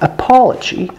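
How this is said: The stressed vowel sounds close to aw. "British variant would be closer to aw"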